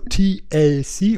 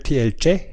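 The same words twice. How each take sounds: First: It is said in a plain German accent. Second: It is said in an Italian accent.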